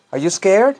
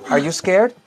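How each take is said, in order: Both takes have the same delivery.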